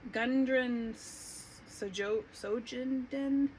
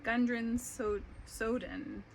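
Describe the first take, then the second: First: A J sound is pronounced in the surname. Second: The J in the surname is silent. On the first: The speaker calls it wrong. "that's bad" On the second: The speaker calls it right. "I think the J might be silent"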